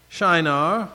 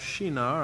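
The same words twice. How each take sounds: First: The name is said with an English pronunciation. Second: The name is said with a Hebrew-like pronunciation. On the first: "as we would say in English" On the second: "in the more Hebraic pronunciation"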